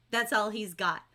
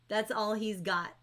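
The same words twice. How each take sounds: The two takes are said the same way.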